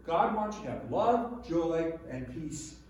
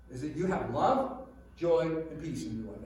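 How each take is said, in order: First: Joy drawn out slow with a rise; slowed emphasis. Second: Said in the usual way. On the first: Shown as a demonstration. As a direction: lean on joy and slow right down. Repeats list, slowing on joy.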